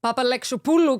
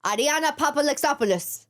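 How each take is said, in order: First: Papalyxopoulou with the final S dropped, ending -pulu; Greek pronunciation. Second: Greek accent, name rolled out. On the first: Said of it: "'cause we dropped the S". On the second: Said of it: "say it with a Greek accent". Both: Shown as a demonstration.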